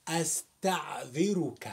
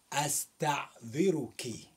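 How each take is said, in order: First: أستعذرك said astaðiruk, closing on -uk; masculine ending. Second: أستعذرك said astaðiruki, closing on -uki; feminine ending. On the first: Teacher giving the form addressed to a man, astaðiruk. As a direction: end أستعذرك on a short -uk. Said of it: "speaking to a man". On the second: Teacher giving the form addressed to a woman, astaðiruki. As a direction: end أستعذرك with an added -ki. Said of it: "speaking to a woman". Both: Shown as a demonstration.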